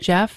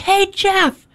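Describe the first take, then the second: First: It is said in a quiet, gentle voice. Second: It is said in a loud, booming voice.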